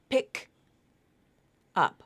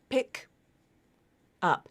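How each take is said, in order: First: The two words are said with a break between. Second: The same.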